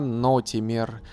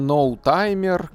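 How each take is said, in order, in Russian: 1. Имя произносится как 'no-ti-mer' с 'ee'. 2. Имя произносится как 'nou-tai-mer' с 'eye'. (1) "а нотимер" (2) "я не ноутаймер, как это можно прочитать"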